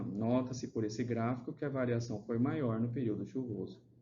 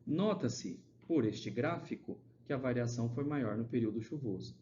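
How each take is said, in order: First: The sentence flows without any pauses inside it. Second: Pauses break up the sentence in the middle. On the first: The speaker calls it right. "poderia ser escrito assim" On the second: The speaker calls it wrong. "com essas vírgulas, vocês percebem que, tipo, fica criando pausa no meio da leitura"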